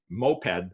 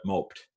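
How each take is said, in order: First: "moped" as MO-ped, two syllables; vehicle pronunciation. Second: "moped" as one syllable, MOPED rhyming with "roped"; sulking-verb pronunciation. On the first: Lecturer naming the vehicle, two-syllable "moped". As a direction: say "moped" with a clear "ped" at the end. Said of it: "is that a vehicle". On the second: Lecturer making the vehicle sad, one-syllable "moped". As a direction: say "moped" as the past of "mope". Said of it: "or is it a sad vehicle". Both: Shown as a demonstration.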